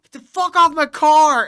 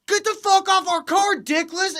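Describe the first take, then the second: First: Loud, raised shout of a furious car owner; acted-out angry bellow; imitated angry yell. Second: Very high, loud jeering woman; high-pitched imitated abuse; mock trash talk. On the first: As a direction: yell it like warning someone off. Retells car owner yelling. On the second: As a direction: heckle shrilly, imitating a loudmouth girlfriend. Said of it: "talking mad shit".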